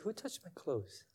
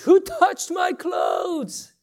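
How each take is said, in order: First: It is said quietly, without shouting. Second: It is shouted loudly over a crowd.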